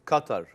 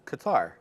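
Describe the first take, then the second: First: The name is said with Arabic-style pronunciation. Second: The name is said with English-style pronunciation. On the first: "you want to know how it's said in Arabic or in English?" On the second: "like in English"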